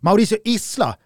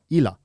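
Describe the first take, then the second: First: The name is said with an s sound. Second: The name is said without an s sound.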